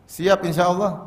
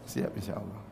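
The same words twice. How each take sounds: First: Asking the crowd. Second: A much softer, muted answer to his own question; reply softly as a hesitant listener. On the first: Shown as a demonstration. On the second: Pretend. Preacher answering his own question for the congregation, muted reply.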